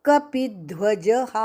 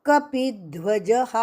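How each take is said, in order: No difference in how they are said.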